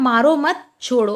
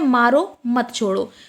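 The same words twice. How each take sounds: First: The pause comes after the word 'mat'. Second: The pause comes after the word 'maro'. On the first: Do not hit; let go. "पहले का मतलब अलग है कि मारो मत छोड़ दो" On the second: Hit; do not let go. "यहां पर इसका मतलब यह है कि किसी को मार"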